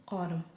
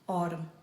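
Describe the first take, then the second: The two takes are said the same way.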